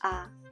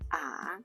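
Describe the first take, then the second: First: The pitch stays short and low. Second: The pitch dips low and then rises. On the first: "it sounds like a short low tone" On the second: "we often don't use the fourth third tone"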